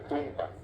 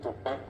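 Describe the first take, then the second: First: The stress falls on the first syllable. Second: The stress falls on the last syllable. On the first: "ellos le ponen un acento en el medio" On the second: "en vez de poner el acento al final"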